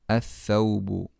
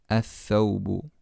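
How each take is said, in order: The two takes are said the same way.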